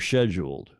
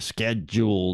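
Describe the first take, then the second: First: It is said with a British pronunciation. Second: It is said with an American pronunciation. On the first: "as you Brits would say" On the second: "as we Americans would say"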